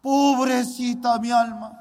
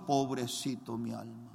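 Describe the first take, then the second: First: Louder, anguished wail; loud lament. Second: Low, soft, sorrowful murmur; quiet lament. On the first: Boy weeping over his own soul, loud anguished wail. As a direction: cry it out in anguish. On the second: Boy weeping over his own soul, quiet lament. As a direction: grieve for his soul under his breath. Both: Retold or imitated. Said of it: "Yo lloraba mucho".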